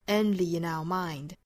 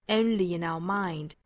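Both takes have the same delivery.

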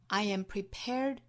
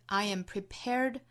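No difference in how they are said.

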